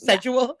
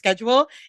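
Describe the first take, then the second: First: The word is said with a British pronunciation. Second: The word is said with a non-British pronunciation. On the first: "the only thing she mastered in a British accent was that they say the word schedule" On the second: "instead of"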